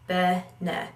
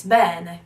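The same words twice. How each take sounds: First: "bene" said flat, no lean on the first e; a bland, evenly stressed "bene"; "bene" with both syllables equal; wrong stress. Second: "bene" louder, with weight on the first e; Italian "bene", first syllable punched; stress on the first e. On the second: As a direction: lean hard on the "be" of "bene". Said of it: "lean on the first e". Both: Shown as a demonstration.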